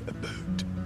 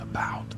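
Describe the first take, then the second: First: It is said in an imitated Canadian accent. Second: It is said in a plain American accent. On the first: "they say about" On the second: "instead of saying about"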